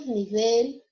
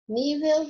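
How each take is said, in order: First: Nível said as niVEL; stress on VEL. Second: Nível with the stress on NÍ. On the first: Teacher gives the Spanish take, stress on VEL in nível. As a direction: say nível stressed at the end, rising. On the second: Teacher gives the Portuguese take, stress on NÍ in Nível. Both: Shown as a demonstration. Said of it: "só muda a sílaba tônica".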